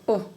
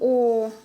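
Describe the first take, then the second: First: The O vowel is short. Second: The O vowel is long. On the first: "все буквы О читаются коротко" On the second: "Длинное О, как в русском"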